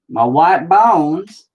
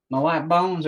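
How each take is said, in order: First: High, loud, stretched words; slow, pitched-up playful announcement; drawn-out exclamation. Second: Said in the usual way. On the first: Pretend. Phrase drawn out, then said normally.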